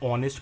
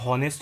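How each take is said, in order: First: The word begins directly with a vowel. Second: The word begins with an h sound. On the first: The speaker calls it right. "इसको हम ऑनेस्ट पढ़ते हैं, इसमें एच silent होता है" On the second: The speaker calls it wrong. "ये हॉनेस्ट नहीं होता है"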